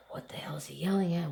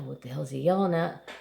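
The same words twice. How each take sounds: First: Fast, unvoiced, frightened whisper. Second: Said in the usual way. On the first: Boy near a stalking lion whispers, fast and scared. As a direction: hush it fast, as if the lion might hear.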